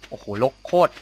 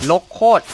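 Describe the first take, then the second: First: Said in the usual way. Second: Higher, louder repeat in disbelief; loud exclaim. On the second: Real, not acted. Player repeating himself louder, stunned by the overgrown farm. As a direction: blurt it out again, louder.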